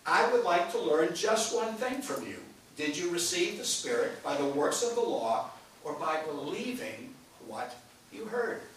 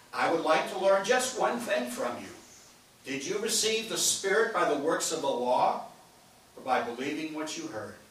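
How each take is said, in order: No difference in how they are said.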